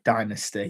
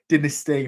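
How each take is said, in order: First: The word is said with an American pronunciation. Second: The word is said with a British pronunciation. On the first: "the American way of Dynasty" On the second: "as us Brits say"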